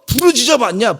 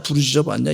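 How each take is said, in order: First: Higher, challenging question in God's voice; preacher voicing God asking the congregation. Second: Said in the usual way. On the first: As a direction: challenge them as God would. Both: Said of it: "이렇게 하시는 것 같아".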